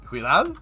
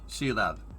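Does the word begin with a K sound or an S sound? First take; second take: K sound; S sound. First: The word begins with a K sound. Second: The word begins with an S sound. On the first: The speaker calls it wrong. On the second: The speaker calls it right.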